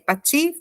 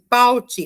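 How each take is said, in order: First: The stress is on the last syllable. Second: The stress is on the first syllable. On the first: The speaker calls it right. "os nomes sempre vão ser mais fortes na última sílaba" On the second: The speaker calls it wrong. "eu poderia ler"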